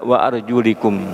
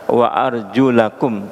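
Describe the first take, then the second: First: The vowel after arjul is an i sound. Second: The vowel after arjul is an a sound. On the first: The feet are only to be wiped. The speaker calls it wrong. "tidak wa arjulikum" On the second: The feet are to be washed. The speaker calls it right. "yang baca yang benar adalah Ahlussunnah wa arjulakum"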